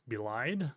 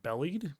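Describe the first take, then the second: First: "belied" said be-LIED, rhyming with lied; corrected word. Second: "bellied" said like belly plus -ed; misread word. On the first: Correcting "belied" for his viewers. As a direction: fixes it to "belied", stress on the second syllable. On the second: Stumbling over "bellied" while reading the court filing. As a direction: reads "bellied" as BELL-eed, a stumble. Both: Real, not acted.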